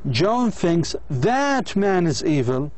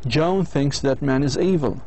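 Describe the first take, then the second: First: The word 'that' is full and stressed. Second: The word 'that' is reduced and unstressed. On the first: "لكن إذا قرأناها بالطريقة هذه" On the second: "هذه الجملة تعني أنه كل البشر أشرار"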